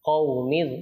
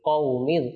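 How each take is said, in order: The two takes are said the same way.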